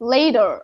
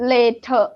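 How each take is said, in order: First: It is said in an American accent. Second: It is said in a British accent. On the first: "but the American says" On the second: "Say they say later"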